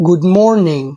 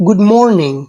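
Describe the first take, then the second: The two takes are said the same way.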